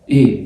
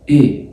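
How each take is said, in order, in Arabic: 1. الحرف بيتنطق قصير ومقطوع. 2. الحرف بيتنطق قصير ومقطوع.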